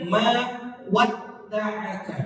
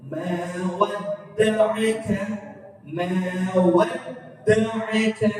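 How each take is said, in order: First: "ma wadda'aka" slow, stretched on the "a"; wrong reading. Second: Slow "wadda'aka" with the d doubled and held; correct tashdid reading. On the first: Teacher demonstrating the wrong lengthened reading. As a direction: drag "wadda'aka" slowly as the mistake. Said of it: "Itu salah". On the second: Teacher modelling the correct slow reading. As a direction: lean on the doubled d slowly. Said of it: "Jadi baca wadd". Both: Shown as a demonstration.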